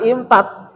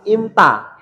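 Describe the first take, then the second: First: "imtat" ending on a hard, clipped final t; "imtat" as the mistake, final t sharply closed; wrong pronunciation. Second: "imta" ending on an open a with no final t; "imta" as the right form, no t at the end; correct pronunciation. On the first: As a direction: say "imtat" with the t stopped short at the end. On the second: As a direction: say "imta" and let the last vowel ring open. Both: Shown as a demonstration. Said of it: "Jangan imtat".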